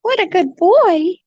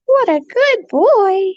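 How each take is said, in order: First: High cooing praise. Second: High, slow drawn-out cooing. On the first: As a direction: coo it at the bird. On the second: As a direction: stretch the praise out, cooing. Slower repeat of praise. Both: Real, not acted.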